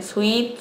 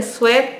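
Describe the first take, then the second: First: «Sweet» con i, «suit»; pronunciación oída. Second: «Sweat» con e abierta, «suet»; pronunciado como se escribe. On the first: Retold or imitated. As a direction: di «Sweet» con vocal i en lugar de e. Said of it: "yo escucho que le dicen". («Sweet» pronunciado «suit», como lo dice la gente) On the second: Shown as a demonstration. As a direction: di «Sweat» leído a la española, con sonido e. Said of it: "acá dice Sweat". («Sweat» pronunciado «suet», tal como está escrito)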